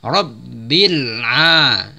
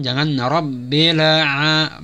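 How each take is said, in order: First: Very slow Rabbil with a still lam; right Rabbil. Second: Slow Rabbil with the lam bounced; wrong bounced lam. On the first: Teacher shows the correct unbounced lam. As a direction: hold the lam in Rabbil without bounce. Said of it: "Bukan dipantulkan lamnya". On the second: Teacher shows the wrong bouncing lam. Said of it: "Lamnya juga jangan dipantulkan". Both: Shown as a demonstration.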